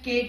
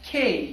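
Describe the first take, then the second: First: The letter name is said in a local style. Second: The letter name is said in an English style. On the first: The speaker calls it wrong. "हम आमतौर पे इसे के कहते हैं, के बिल्कुल गलत है" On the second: The speaker calls it right. "English में इस लेटर की प्रोनाउंसिएशन है"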